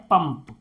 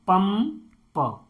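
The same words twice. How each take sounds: First: Said in the usual way. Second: "पंप" slowly as पम, then प; "पंप" drawn out in two pieces; broken into sounds. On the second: Shown as a demonstration. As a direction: split off the last प of "पंप" after a gap. Teacher splits word into sounds.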